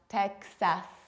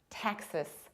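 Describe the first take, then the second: First: The ending has a full vowel. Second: The ending has a reduced vowel. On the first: The speaker calls it wrong. "not Texas" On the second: The speaker calls it right. "You have to reduce the ending"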